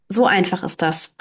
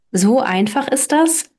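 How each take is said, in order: First: Softer, lower falling answer, stress on So; smiling confirmation. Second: Amazed. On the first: Bertha answering Hans, settling it with a soft smiling fall. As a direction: calmly confirm with a smile. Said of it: "bestätigte lächelnd Bertha". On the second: Hans asking Bertha if it is that simple, rising amazed. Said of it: "staunte Hans". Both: Acted.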